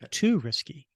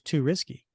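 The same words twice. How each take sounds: First: The first word has a full, long vowel. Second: The first word has a short, reduced vowel. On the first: The speaker calls it right. "not too risky" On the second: The speaker calls it wrong. "How would you have read it if you had read it incorrectly?"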